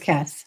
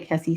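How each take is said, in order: First: The name is said as one syllable. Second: The name is said as two syllables. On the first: The speaker calls it right. "It is Kess" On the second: The speaker calls it wrong. "I want to say Kessie so bad"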